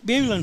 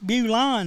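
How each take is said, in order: First: The town name is said the local way. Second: The town name is said the fancy outsider way. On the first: A local person is saying the name. "it's Bulin if we pronounce it" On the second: An outsider, such as a salesman, is saying the name. "It's Bulon if anybody else does"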